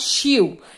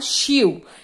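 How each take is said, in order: First: Will is reduced to an attached l sound. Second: Will is reduced to an attached l sound.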